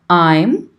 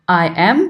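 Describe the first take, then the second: First: It is said as one contracted syllable. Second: It is said as two full separate words. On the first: The speaker calls it right. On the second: The speaker calls it wrong.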